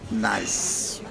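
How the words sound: It is pronounced as the English word nice.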